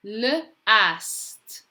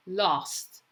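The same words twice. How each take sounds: First: L split off from "ast", raised pitch; sounding out. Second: Said in the usual way. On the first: Shown as a demonstration. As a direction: say L, then ast, separately. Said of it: "say the letters as you're writing". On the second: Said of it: "you're going to read the word".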